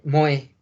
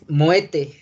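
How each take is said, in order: First: It ends in a vowel with no t sound. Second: A t sound links into the following vowel. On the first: The word stands alone. "si pronunciamos la palabra tal cual así, es moe" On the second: A word starting with a vowel follows. "le llaman ligadura, ¿sale? Entonces la pronunciación es moete"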